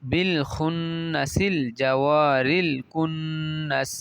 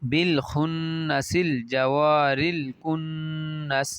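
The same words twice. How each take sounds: The two takes are said the same way.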